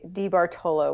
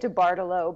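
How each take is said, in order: First: The name is pronounced in an Italian way. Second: The name is pronounced in an anglicized way. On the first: This is how Italian speakers say it. "People who know Italian say DiBartolo, which I actually prefer" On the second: This is how the family says it. "I usually say DiBartolo"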